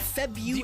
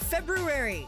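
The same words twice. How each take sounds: First: The first R is left silent. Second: The first R is clearly pronounced. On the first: The speaker calls it wrong. "Not February" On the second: The speaker calls it right. "There's two R's in February"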